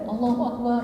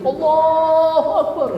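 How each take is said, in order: First: It is said quietly, with an inward voice. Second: It is said loudly, like calling people far away.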